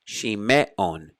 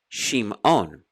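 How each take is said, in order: First: A short vowel is sounded after the m. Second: No vowel is sounded after the m. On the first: The speaker calls it wrong. "It's not Shime" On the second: The speaker calls it right. "It's Shimon"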